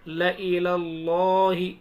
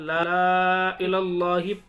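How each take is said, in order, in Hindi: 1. L के बाद वाले स्वर को छोटा रखा जाता है। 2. L के बाद वाले स्वर को लंबा खींचा जाता है। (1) "लेकिन हम क्या पढ़ना है" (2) "पढ़ना चाहिए था"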